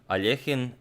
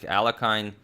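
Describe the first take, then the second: First: The name is said the Russian way. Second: The name is said the American way. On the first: "in the original uh, Russian, I believe it's uh, Alechin" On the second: "most Americans will uh, pronounce it something like Alakine"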